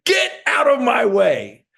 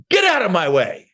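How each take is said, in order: First: Fired-up battle cry at debt; determined shout. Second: Said in the usual way. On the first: Shown as a demonstration. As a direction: roar it like nothing will stop you. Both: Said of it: "That's some powerful stuff".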